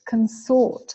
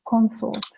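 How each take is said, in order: First: The stress is on the second syllable. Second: The stress is on the first syllable. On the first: It is the verb, to associate with someone. "And verb is consort" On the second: It is the noun, a companion or spouse. "The first syllable is stressed and the second syllable is not reduced"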